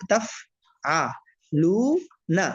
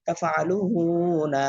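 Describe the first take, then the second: First: তাফআলুনা broken into taf, a, lu, na; one syllable at a time. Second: তাফআলুনা read as one word, long লু; joined reading. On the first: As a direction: clear pause after each syllable of তাফআলুনা. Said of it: "একটা একটা করে বলবেন". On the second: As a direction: run তাফআলুনা together, holding the লু. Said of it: "চালু করে দিলে reading হয়ে যায়". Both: Shown as a demonstration.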